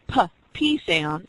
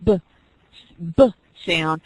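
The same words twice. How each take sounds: First: "p" said softly as a lone sound; p sound demo. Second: "b" said as a lone voiced sound; b sound demo. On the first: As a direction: say "p" as a bare puff of breath, lips popping. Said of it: "watch yourself as you're saying that p". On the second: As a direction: say "b" as a voiced lip pop. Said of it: "then you're saying the b". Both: Shown as a demonstration.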